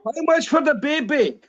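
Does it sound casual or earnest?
earnest. It is said earnestly, like really wanting to buy.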